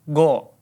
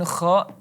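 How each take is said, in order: First: It is said as a plain hard go. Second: It is said as a harsh scraping kha. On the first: "dan bukan juga go" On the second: "bukan kha"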